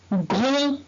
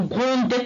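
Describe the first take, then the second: First: Said in the usual way. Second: Gronde, with the final d sounded, as the wrong way; mispronounced gronde, final d spoken; wrong pronunciation. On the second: Shown as a demonstration. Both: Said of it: "On va pas dire gronde".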